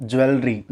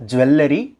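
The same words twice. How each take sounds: First: Jewelry as JU-el-ri, falling; correct jewelry. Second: Jewelry as ju-WEL-le-ri, rising; mispronounced jewelry. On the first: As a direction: say jewelry with no vowel between L and R. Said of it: "it's jewelry". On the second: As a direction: say jewelry with an extra E after the L. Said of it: "It's not jewelry". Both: Shown as a demonstration.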